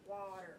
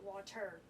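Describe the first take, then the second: First: The stress is on the first syllable. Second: The stress is on the second syllable. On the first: The speaker calls it right. "stressed, unstressed" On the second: The speaker calls it wrong. "not water"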